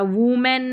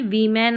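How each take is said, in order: First: The first vowel is an 'oo' sound. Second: The first vowel is an 'i' sound. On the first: The speaker calls it wrong. "वूमेन नहीं" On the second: The speaker calls it right. "वीमेन आ रहा है"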